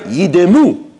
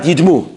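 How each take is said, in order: First: A short vowel is sounded between d and m. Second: The d and m run together with no vowel. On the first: The speaker calls it right. "It's Shvana" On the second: The speaker calls it wrong. "not Shvanach"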